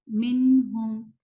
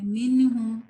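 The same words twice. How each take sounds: First: "منہم" slow, the nun held steady with no bounce; calm correct "منہم". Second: "منہم" with the nun bounced like qalqala; wrong shaken nun. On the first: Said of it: "نون کو ہلا دیتے ہیں". (درست "منہم") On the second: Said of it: "ایسے نہیں". (غلط قلقلہ والا "منہم") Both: Shown as a demonstration.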